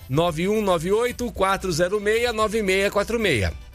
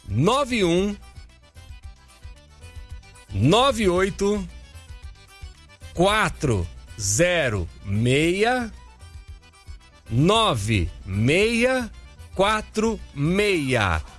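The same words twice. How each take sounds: First: The digits are said at normal, quick pace. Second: The digits are said slowly with pauses.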